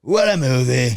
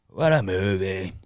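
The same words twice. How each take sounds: First: Loud, higher put-on impression voice; running impression. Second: Drawn-out, lightly put-on impression voice; running impression. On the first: Comic redoing it for the guy beside him, loud mock impression. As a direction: belt out the hammy bit. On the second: Comic showing off his bit, drawn-out mock impression. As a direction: stretch it out as a hammy bit. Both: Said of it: "Mine's bad".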